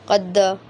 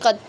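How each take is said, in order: First: The final d is followed by a full vowel. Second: The final d stops flat with no bounce. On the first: "कलखला को इतना बढ़ा दें कि उसको ज़बरी बना दें" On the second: "अगर हम कलखला ना करें, कद ऐसे पढ़ लें, तो फिर ये गलत है"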